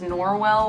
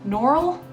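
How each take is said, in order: First: The name is said with a w sound. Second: The name is said without a w sound.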